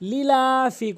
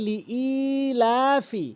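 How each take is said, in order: First: The vowel after the glottal stop is short. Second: The vowel after the glottal stop is drawn out. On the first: The speaker calls it wrong. "অধিকাংশ লোক যে ভুলটি করে লিলাফি বলে" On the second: The speaker calls it right. "বলতে হবে লিইলাফি"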